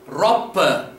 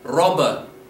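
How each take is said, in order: First: The middle consonant is a sharp, explosive P. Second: The middle consonant sounds like a soft B. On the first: The speaker calls it wrong. "your mind as an English speaker wants to say, Roppe, but we don't" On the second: The speaker calls it right. "we have more of a b b sound"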